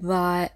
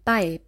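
First: The b sound is held long before opening. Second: The b sound is released very quickly. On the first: The speaker calls it wrong. "dass der Laut nicht zu lange gebildet wird, dass wir nicht sagen bei" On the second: The speaker calls it right. "sondern bei ... dass die Lippen sehr schnell aufgehen"

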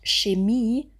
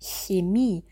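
First: It begins with a rounded sh sound. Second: It begins with a spread-lip ch sound. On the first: The speaker calls it wrong. "wir sagen nicht Chemie mit einem Sch, wo die Lippen nach vorne gehen" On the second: The speaker calls it right. "die Lippen sind breit. Wir sagen Chemie"

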